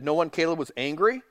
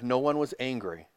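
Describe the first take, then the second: First: ANGRY lifted at the end as a question. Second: ANGRY falling at the end, as a statement; stated answer. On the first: Interviewer asking the brother about the family, questioning. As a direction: ask it, rising on ANGRY. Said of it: "And Larry King said". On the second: Brother answering the interviewer, stated answer. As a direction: say it quietly, settling down on ANGRY. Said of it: "And Caleb said". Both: Retold or imitated.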